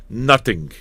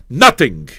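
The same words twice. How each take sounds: First: Said in the usual way. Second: "Nothing." punched out loud and hard; emphatic repeat. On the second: Shown as a demonstration. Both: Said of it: "He does nothing".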